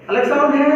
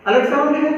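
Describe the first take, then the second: No difference in how they are said.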